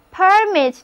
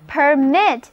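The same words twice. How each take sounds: First: "permit" stressed on the first syllable. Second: "permit" stressed on the second syllable. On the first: Teacher shows noun "permit" to learners, stress on first syllable. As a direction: say "permit" as the noun, weight on "per". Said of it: "如果我们把重音放在第一个音节上". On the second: Teacher models verb "permit" for learners, stress on second syllable. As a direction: say "permit" as the verb, weight on "mit". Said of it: "重音还是放在第二个音节上". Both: Shown as a demonstration.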